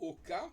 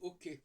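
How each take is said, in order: First: The word ends in 'ka'. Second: The word ends in 'kay'. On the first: The speaker calls it right. "au lieu de dire OK" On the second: The speaker calls it wrong. "ils disent OK"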